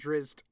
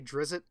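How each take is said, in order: First: The name is said in a fuller, harder form. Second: The name is said in a simplified, easier form. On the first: The speaker calls it right. "it's easier to fucking say than Drizzt" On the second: The speaker calls it wrong. "I usually just say Drizzt, and even though I know that's not how you fucking pronounce it"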